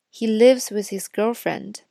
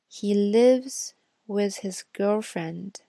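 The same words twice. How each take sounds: First: The sentence is read at normal speed. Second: The sentence is read at slower speed. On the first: "第一遍会读正常语速" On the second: "第二遍呢会读慢一点的"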